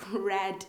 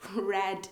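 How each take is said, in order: First: The word sounds like 'red'. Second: The word sounds like 'red'.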